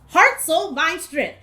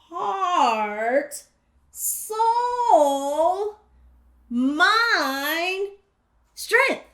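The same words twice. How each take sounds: First: It is said fast. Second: It is said slowly.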